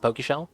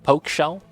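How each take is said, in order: First: The first syllable sounds like the start of Pokemon. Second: The first syllable sounds like the word poke. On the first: The speaker calls it wrong. "it's not pronounced Pokeshell" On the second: The speaker calls it right. "It's poke, like they poke you"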